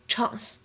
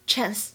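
First: It is said in a British accent. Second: It is said in an American accent. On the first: "在英式英语当中呢，它读作chance" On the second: "美式英语当中呢，我们读作chance"

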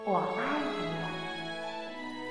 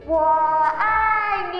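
First: It is said softly and quietly. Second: It is said loudly and strongly.

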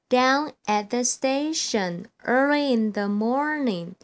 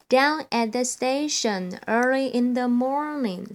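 First: It is spoken at a faster pace. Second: It is spoken at the fastest pace. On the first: "我要加快速度咯。" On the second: "第三遍最快咯。"

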